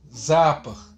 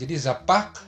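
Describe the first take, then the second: First: The stress is on the first syllable. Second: The stress is on the second syllable. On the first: "tekanannya di za" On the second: "tekanannya di pak"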